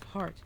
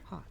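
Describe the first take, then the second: First: It is said with an American R sound. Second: It is said British-style with the R dropped. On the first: "Americans have a unique R sound" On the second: "they drop the consonants on the end"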